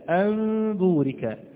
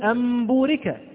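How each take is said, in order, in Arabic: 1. الميم مخفاة والشفتان مفترقتان قليلا. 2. الميم صريحة والشفتان مطبقتان تماما. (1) "أنا لا أضم الشفتين ضما كاملا، ولكن هناك انفراجة خفيفة" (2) "أنا لا أقول أنبورك ... وإلا كانت الميم هنا صريحة ليست مخفاة"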